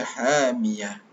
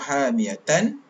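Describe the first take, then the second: First: The final letter is silenced, ending on h. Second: The ending is fully voweled with a final n. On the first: The reader stops on this word. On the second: The word is read in connected flow.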